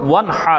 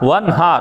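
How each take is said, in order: First: The h is harsh, from mid-throat. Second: The h is soft, like a plain h. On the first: It means to offer sacrifice. The speaker calls it right. "এটা হচ্ছে সঠিক অর্থ" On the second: It means to scold. The speaker calls it wrong. "ভুল তেলাওয়াত এবং অর্থ ভুল"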